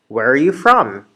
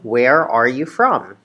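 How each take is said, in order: First: The question is said quickly. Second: The question is said slowly. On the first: "I'm going to speed up" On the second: "I'm going to slow down"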